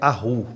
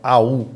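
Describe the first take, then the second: First: A throaty R-like sound comes before the final vowel. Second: The vowels run together with no R-like sound. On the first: The speaker calls it wrong. "Não é arru" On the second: The speaker calls it right. "é au"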